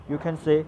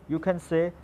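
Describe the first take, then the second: Both takes have the same delivery.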